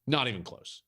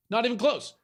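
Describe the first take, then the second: First: Said in the usual way. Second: Higher insistent repeat, NOT hit hard; emphatic repeat. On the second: Shown as a demonstration. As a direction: hammer home the word Not.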